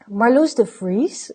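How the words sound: The name is said with an English accent.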